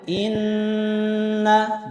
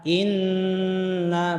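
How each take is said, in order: First: The nasal n is held for three extra counts. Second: The nasal n is held for two extra counts. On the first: "Kalau satu setengah alif, tambah lagi" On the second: "baru ta, tahan. Itu kalau satu alif"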